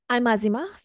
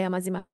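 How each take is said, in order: First: It is said with clear emphasis. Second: It is said flatly, with no emphasis. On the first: The speaker calls it right. "this is a new, improved you" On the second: The speaker calls it wrong. "This is me without pausing, without emphasizing"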